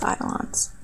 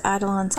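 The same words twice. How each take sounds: First: Breathy whisper of eidolons. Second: Said in the usual way. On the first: Shown as a demonstration. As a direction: breathe the word eidolons softly. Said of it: "echoed word, whispered". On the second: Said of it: "echoed word, softer".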